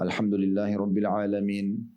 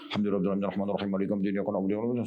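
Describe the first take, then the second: First: A short pause separates each verse. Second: The verses run together without any pause. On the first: The reciter has time to reflect on the meaning. The speaker calls it right. "Ayat demi ayat, kasih jeda satu detik" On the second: The reciter cannot reflect on what is read. The speaker calls it wrong. "Jadi nggak usah buru-buru"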